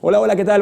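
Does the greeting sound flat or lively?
lively. The voice sounds lively and enthusiastic. The greeting is believable. The speaker calls it right. "Pero si yo digo"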